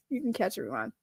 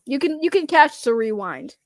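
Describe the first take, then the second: First: Softer, under the breath; quiet repeat. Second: Said in the usual way. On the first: Real, not acted. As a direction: say it again quietly to yourself. Repeating reassurance to viewer Isaac.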